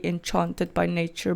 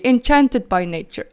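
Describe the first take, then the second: First: "enchanted" as en-CHAHN-ted, open ah; Afrikaans-style enchanted. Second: "enchanted" as en-CHAN-ted, a as in cat; short front a in "enchanted"; English-style enchanted. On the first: Vlogger mimicking her mid-Afrikaans usage, Afrikaans-style pronunciation. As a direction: broaden the middle vowel of "enchanted" to ah. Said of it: "in the middle of an Afrikaans sentence". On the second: Vlogger showing how she says it in English, English-style pronunciation. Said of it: "when I speak English, like now". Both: Shown as a demonstration.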